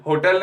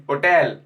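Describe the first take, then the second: First: होटल with a sounded h at the start; wrong h hotel. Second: होटल said as otel, no h; silent h hotel. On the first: Teacher showing the wrong way, h sounded. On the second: Teacher correcting students, h silent. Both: Shown as a demonstration. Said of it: "होटल नहीं".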